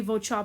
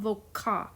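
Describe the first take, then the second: First: "vocha" said vo-cha; CH in the middle of "vocha"; C wrongly as CH. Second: "voca" said vo-ka; a K sound in the middle of "voca"; hard C. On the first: Teacher shows the song-word mistake, "vocha" with CH. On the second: Teacher corrects a song word, "voca" with K. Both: Shown as a demonstration. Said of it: "so it wouldn't be vocha".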